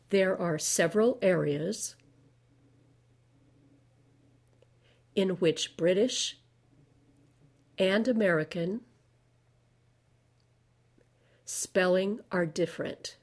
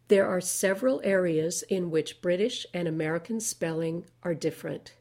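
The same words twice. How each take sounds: First: The sentence is read slowly. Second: The sentence is read at medium speed. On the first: "Now I'll read things slowly" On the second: "now I'll read it at medium speed"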